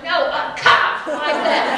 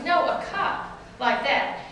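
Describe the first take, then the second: First: Slower, louder, every word pressed; mock exasperated coach; emphatic slow repeat. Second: Said in the usual way. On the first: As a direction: spell it out to a clueless mom. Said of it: "he finally went". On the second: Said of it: "he finally goes".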